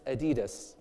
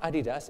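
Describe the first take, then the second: First: Adidas stressed in the middle, a-DEE-das; correct pronunciation. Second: Adidas stressed at the front, AD-ee-das; wrong pronunciation. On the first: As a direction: hit the second syllable of Adidas. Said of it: "It's not Adidas". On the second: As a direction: hit the first syllable of Adidas. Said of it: "it's Adidas". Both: Shown as a demonstration.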